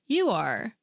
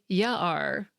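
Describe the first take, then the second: First: The word 'you' is said in full. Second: The word 'you' is reduced to 'ya'. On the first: The speaker calls it right. "Squiggly might say" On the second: The speaker calls it wrong. "he wouldn't say"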